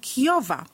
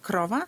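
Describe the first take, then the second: First: A y-like glide follows the k. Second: An r sound follows the k. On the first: The child struggles to raise the tongue. The speaker calls it wrong. "głoska ry jest zamieniana na i" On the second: The word is pronounced correctly. The speaker calls it right. "zamiast krowa"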